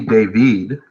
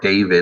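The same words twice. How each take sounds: First: The name is pronounced in the French way. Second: The name is pronounced in the American way.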